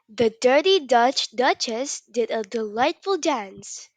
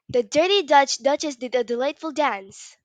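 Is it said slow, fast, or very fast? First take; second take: slow; very fast. First: It is said at a slow pace. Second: It is said at a very fast pace.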